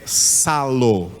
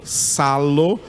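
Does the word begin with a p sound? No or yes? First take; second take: no; no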